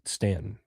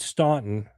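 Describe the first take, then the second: First: The name is pronounced the local Southern way. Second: The name is pronounced just as it is spelled. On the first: The speaker is a local Southerner. "the South, they pronounce it" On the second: The speaker is from the North. "which is what it looks like"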